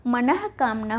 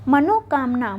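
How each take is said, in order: First: मनः कामना with breath h before k; manah, not mano, in मनः कामना; correct form मनः कामना. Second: मनोकामना with o after n; the mistaken mano in मनोकामना; wrong form मनोकामना. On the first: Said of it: "मनः कामना होता है". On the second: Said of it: "मनोकामना नहीं होता". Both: Shown as a demonstration.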